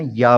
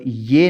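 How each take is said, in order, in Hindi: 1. अक्षर के नाम का अंत 'a' स्वर से होता है। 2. अक्षर के नाम का अंत 'e' स्वर से होता है। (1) "पढ़ना है" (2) "नहीं पढ़ना"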